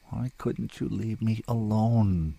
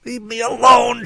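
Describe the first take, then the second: First: Slow, subdued lament; weary question. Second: High, loud shriek. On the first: Rescued woman lying on the shore to her rescuer, slow weary misery. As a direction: ask it slowly, drained of all fight. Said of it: "she asked at last". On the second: Struggling woman to the man gripping her hair, furious shriek. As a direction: scream it to drive him off. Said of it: "she shrieked". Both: A narrator's reading.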